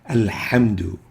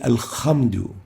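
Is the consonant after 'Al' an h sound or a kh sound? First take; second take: h sound; kh sound. First: The consonant is a breathy mid-throat h sound. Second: The consonant is a scraping upper-throat kh sound. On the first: The speaker calls it right. "the proper way is to say" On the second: The speaker calls it wrong. "changing the ha with the kha. ... This is wrong"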